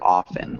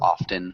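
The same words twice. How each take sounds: First: The T sound is left out. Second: The T sound is clearly pronounced. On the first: This is the usual pronunciation. "the T is silent, so it sounds like often" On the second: This pronunciation is very rare. "Nobody says often"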